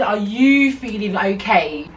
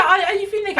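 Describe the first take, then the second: First: Slow, deliberate "Are you feeling okay," in usual pitch; pointed slow question. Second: High, hurried mock question; high-pitched mimicry. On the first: Retold or imitated. Customer confronting the worker, slow and pointed on "you". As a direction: lean on "you", drawing the question out. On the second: Customer questioning the upset worker, high and exaggerated. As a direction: rattle it off up high. First take, rattled off high.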